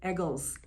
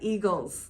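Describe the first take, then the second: First: The first vowel sounds like the vowel in eggs. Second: The first vowel is a long ee sound. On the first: "they say Eagles" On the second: "Not eagles"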